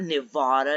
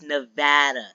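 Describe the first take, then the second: First: The middle vowel sounds like an o-like 'ah'. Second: The middle vowel sounds like the 'a' in cat. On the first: The speaker calls it wrong. "Where do you hear an O? ... It's not Nevada" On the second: The speaker calls it right. "it's Nevada"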